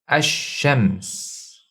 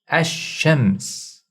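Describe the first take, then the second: First: The l blends into a doubled sh sound. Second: The same.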